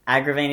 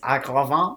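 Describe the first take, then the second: First: The name is pronounced the English way. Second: The name is pronounced the French way.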